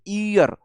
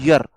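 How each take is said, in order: First: The word begins with a long ee vowel. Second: The word begins with a y glide sound. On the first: The speaker calls it wrong. "हम इसे ईयर बोलते, ईयर pronounce करते" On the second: The speaker calls it right. "इसका pronunciation होता है यर"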